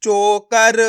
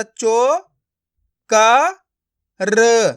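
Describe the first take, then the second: First: चोकर joined as one stretched word; blended word. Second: चो, क, र each sounded alone; syllable by syllable. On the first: Teacher showing learners the joined result, blended word. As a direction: run चो, क, र together as चोकर. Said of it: "तो मिलके बन जाएगा". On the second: Teacher breaking a word up for learners, syllable by syllable. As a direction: leave gaps between चो, क and र. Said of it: "एक एक अक्षर का उच्चारण करके". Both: Shown as a demonstration.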